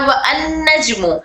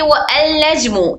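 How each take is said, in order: First: A separate 'an' with its vowel is heard. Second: A separate 'al' with a clear l is heard. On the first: "या वो अन नजमु" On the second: "ना कि वो अल नजमु"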